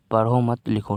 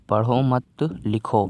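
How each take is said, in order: First: "पढ़ो" के बाद हल्का ठहराव, "मत लिखो" साथ में; "मत लिखो" को बिना रुके जोड़कर बोलें; पढ़ो पर विराम. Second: धीमे "पढ़ो मत", ठहरकर "लिखो"; "मत" के बाद रुकें, "लिखो" अलग बोलें; मत के बाद विराम. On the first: ("पढ़ो", फिर एक साँस में "मत लिखो") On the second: ("पढ़ो मत" साथ में, धीरे, फिर विराम और "लिखो") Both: Shown as a demonstration. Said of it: "एक छोटे से विराम की वजह से".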